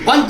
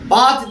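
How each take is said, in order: First: The first vowel is short. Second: The first vowel is long and nasalized. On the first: "पंच देव का उच्चारण भी किया जाता है" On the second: "पांच देव के स्थान पर"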